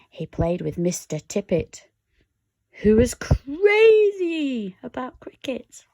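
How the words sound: It is read in a put-on character voice.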